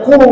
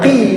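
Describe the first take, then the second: First: The letter is read as a short qu. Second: The letter is read as a short qi. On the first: "tidak boleh kita baca qu" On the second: "Tidak boleh kita baca qi"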